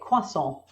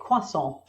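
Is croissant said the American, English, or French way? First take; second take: English; English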